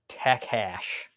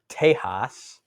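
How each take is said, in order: First: The middle consonant is a hard K sound. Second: The middle consonant is soft, with no K. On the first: "I don't know where he's getting the K sound" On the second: "So when you look up that word, it's Tejas"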